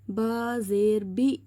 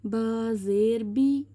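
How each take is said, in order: First: The final vowel ends with a glottal catch. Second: The final vowel ends openly without a catch. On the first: The speaker calls it wrong. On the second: The speaker calls it right.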